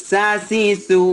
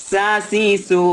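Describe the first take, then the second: Both takes have the same delivery.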